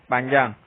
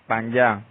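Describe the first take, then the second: Both takes have the same delivery.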